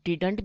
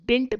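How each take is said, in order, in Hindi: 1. बीच की d ध्वनि साफ़ तौर पर बोली जाती है। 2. बीच की d ध्वनि पूरी तरह छोड़ दी जाती है। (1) "डिड प्लस नॉट को शॉर्ट में हम डिडंट भी बोलते हैं" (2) "या फिर डिंट भी बोलते हैं। एक डी को हम साइलेंट करते हैं।"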